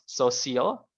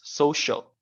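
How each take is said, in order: First: The stress is on the second syllable. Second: The stress is on the first syllable. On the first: The speaker calls it wrong. "it was pronounced social" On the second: The speaker calls it right. "with the emphasis in the first"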